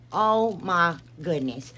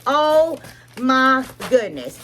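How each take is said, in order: First: Said in the usual way. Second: Higher, slow, stretched oh my goodness; slow, high, delighted gasp of praise; drawn-out awe. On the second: Real, not acted. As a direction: gush over it slowly. Admiring products, repeats phrase.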